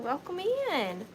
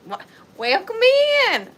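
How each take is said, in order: First: Said in the usual way. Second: Exaggerated Southern accent. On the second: Shown as a demonstration. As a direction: lay the Southern twang on thick. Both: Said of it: "I don't usually talk like that".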